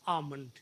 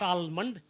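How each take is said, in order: First: The L sound is left silent. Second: The L sound is clearly pronounced. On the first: The speaker calls it right. "L is silent in this word" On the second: The speaker calls it wrong. "It's not almond"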